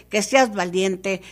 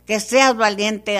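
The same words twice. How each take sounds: First: Said in the usual way. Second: Louder insistence. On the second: Acted. Same command repeated, louder.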